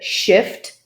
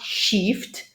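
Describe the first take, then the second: First: The vowel is short, as in 'ship'. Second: The vowel is long, as in 'sheep'. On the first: The speaker calls it right. "it's uh, uh, uh, shift" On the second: The speaker calls it wrong. "not shift"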